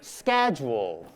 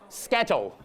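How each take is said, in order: First: It is said in an American accent. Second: It is said in a Hong Kong accent. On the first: "American accent" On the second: "Hong Kong accent"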